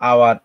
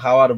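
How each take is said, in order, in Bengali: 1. শব্দটি স্বরধ্বনি দিয়ে শুরু, h ধ্বনি নেই। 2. শব্দটি স্পষ্ট h ধ্বনি দিয়ে শুরু। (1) "দেখো উচ্চারণের ক্ষেত্রে দেখো" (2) "আমরা কিন্তু হাওয়ার বলি না"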